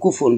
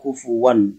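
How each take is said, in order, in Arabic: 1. تُنطق الكلمة بالهمزة. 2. تُخفَّف الهمزة فتصير صوت الواو. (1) "هو أصل كفء بالهمزة" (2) "تخفيف الهمزة فيصير كفوا"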